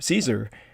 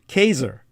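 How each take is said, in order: First: The word begins with an S sound. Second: The word begins with a K sound. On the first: This is the anglicized form of the name. "which is a vulgarization. It's an Anglo-bastardized word" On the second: This is the original classical Latin form of the name. "the original Latin pronunciation is Kaiser"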